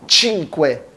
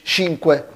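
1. تبدأ الكلمة بصوت 'ch'. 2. تبدأ الكلمة بصوت 'sh'. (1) "اكن قبلها تي خفيفه، بقت تشينكوي" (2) "مش شينكوي"

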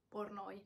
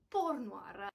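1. Il nome finisce con il suono oy, senza r. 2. Il nome finisce con il suono war, con r. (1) "mi viene difficile tornare alla pronuncia Pornoi" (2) "adesso che conosco la corretta pronuncia"

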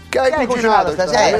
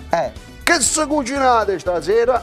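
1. È detta in italiano standard. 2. È detta in dialetto regionale. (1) "Lo dico in italiano?" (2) "Lo dico in italiano?"

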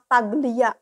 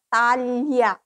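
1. Dieja huruf demi huruf sesuai tulisannya. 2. Diucapkan dengan lafal Italia. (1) "Kalau dibaca mah taglia" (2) "bahasa Italianya taglia"

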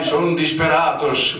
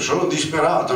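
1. Si pronuncia con una S finale, finto spagnolo. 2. Si pronuncia in italiano normale.

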